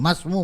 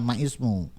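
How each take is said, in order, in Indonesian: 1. Huruf 'i' dihilangkan dan kata-katanya menyambung. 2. Huruf 'i' dipertahankan dan kata-katanya tetap terpisah. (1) "Jadi masmu" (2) "bukan ma ismu"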